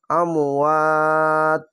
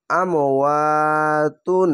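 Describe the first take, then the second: First: আমওয়াত stretched long and stopped on a silent ত; stopping on আমওয়াত. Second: আমওয়াতুন read slowly with the full ending তুন; wrong ending tun. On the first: Teacher showing the right pause, slow recitation of আমওয়াত. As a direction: recite আমওয়াত slowly, dropping the তুন ending. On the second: Teacher showing students the wrong way to stop, আমওয়াতুন with তুন. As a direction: recite আমওয়াতুন drawn out, keeping the final তুন. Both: Shown as a demonstration. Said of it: "এই আমওয়াতুন না বলে".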